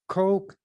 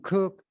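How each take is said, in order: First: The name sounds like the word coke. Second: The name sounds like the word cook. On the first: "Some people pronounce it"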